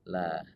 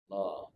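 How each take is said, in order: First: The l sound is light and thin. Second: The l sound is heavy and full. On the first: The preceding vowel is i. "bunyinya la atau tipis" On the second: The preceding vowel is a or u. "kalau huruf sebelumnya fathah dan dhammah maka bunyinya Allah"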